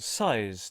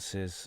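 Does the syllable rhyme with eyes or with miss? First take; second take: eyes; miss. First: The vowel is a long 'eye' sound. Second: The vowel is a short 'i' sound. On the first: "I think I'm going to go for size today" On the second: "rather than Sis"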